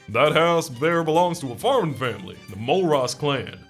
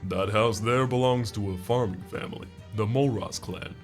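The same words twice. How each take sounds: First: It is read in an ordinary, unaltered voice. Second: It is read in an imitated put-on character voice. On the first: The speaker calls it wrong. "This guy's voice actually doesn't read right in this" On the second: The speaker calls it right. "I can't do his voice super well. I'm gonna give it a go though"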